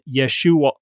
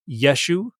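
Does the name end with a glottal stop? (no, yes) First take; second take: yes; no. First: The name ends with a glottal stop. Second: The name ends without a glottal stop. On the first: "and then we have this glottal stop" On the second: "if the Galileans didn't pronounce that glottal stop"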